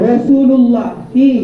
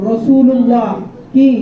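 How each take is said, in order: No difference in how they are said.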